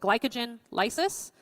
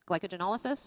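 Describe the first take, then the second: First: It is said as two separate parts. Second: It is said as one run-together word.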